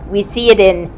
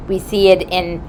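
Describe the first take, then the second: No difference in how they are said.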